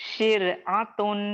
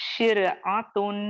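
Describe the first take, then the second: Both takes have the same delivery.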